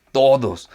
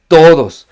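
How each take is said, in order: First: Said in the usual way. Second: Todos, shouted loud on the repeat; louder repeat. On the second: Shown as a demonstration. Pastor shouting todos to the whole congregation. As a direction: hammer home that everyone is included.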